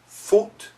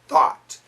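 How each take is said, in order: First: The vowel is said without dropping the jaw. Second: The vowel is said with the jaw dropped open. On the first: The speaker calls it wrong. "No, not for American pronunciation" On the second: The speaker calls it right. "Gotta drop the chin"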